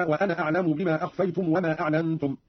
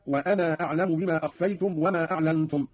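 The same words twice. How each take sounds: First: Said in the usual way. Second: وأنا with its final aa held long before أعلم; lengthened alif. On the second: Shown as a demonstration. Teacher showing Qalun's reading, long aa in وأنا. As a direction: stretch the end of وأنا into a long "anaa". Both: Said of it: "قرأ قالون بإثبات الألف بعد النون ممدودة".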